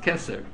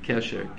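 First: The middle consonant is a plain s sound. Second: The middle consonant is an sh sound. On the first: This is the traditional Hebrew form of the name. The speaker calls it right. "he insisted that the name of the shul was Keser" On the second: This is the name as written in English. The speaker calls it wrong. "they shouldn't write it Kesher, K-E-S-H-E-R"

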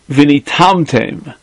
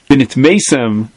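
First: The word is read with an 'a' vowel, 'venitamtem'. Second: The word is read with the standard vowels, 'venitmetem'. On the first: Your heart will become dulled through them. "they read it as if the first Tess had a Pasach on it" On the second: You will become impure through them. "Vinitmesem becomes Vinitamtem"

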